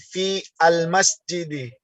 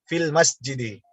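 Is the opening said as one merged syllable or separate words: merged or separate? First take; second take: separate; merged. First: Fi and al are said as separate syllables. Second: Fi and al merge into one syllable, fil. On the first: The speaker calls it wrong. "Yang kita baca bukan fi al masjidi" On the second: The speaker calls it right. "pengucapan yang benarnya"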